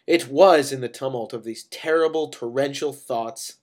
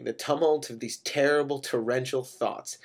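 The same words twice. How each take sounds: First: "It was" hit loudly, then "terrible torrential thoughts" punched; louder, relish the t's in "tumult of these terrible torrential thoughts"; emphatic alliteration. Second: Said in the usual way. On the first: A narrator's reading. Narrator shows off "terrible torrential thoughts", emphatic alliteration.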